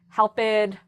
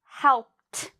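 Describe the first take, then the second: First: The ending is an extra syllable. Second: The ending is a short t sound. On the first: The speaker calls it wrong. "notice I did not say helped" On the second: The speaker calls it right. "I just made that strong t sound"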